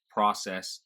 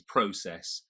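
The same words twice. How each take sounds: First: "process" as "PRAH-sess"; American pronunciation. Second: Said in the usual way. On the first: Shown as a demonstration. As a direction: open AH in "process", American style. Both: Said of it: "little quirks".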